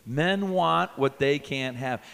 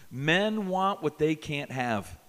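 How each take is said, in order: First: Slow, a bit louder chant; repeat it louder. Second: Slow and deliberate; slow teaching line. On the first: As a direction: say it back with the crowd. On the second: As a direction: spell it out slowly for them. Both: Shown as a demonstration. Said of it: "Say that with me".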